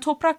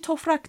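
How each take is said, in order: First: It is said with a p sound before r. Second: It is said with an f sound before r. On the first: This is the form that was not used. "Nevai'den itibaren 3 kelimede PF değişmesi olmuş" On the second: This is the form people used from then on. "değil toprak demişler"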